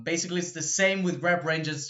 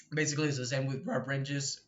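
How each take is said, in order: First: Said in the usual way. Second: Voice crack. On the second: Real, not acted. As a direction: voice cracking on "rep". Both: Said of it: "the voice crack".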